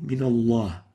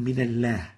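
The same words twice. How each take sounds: First: The L is said heavy and thick. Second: The L is said light and thin. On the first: The speaker calls it right. "Lam here should have been given tafkhim" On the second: The speaker calls it wrong. "giving uh, the lam attenuation, tarqiq, where it should have been velarized"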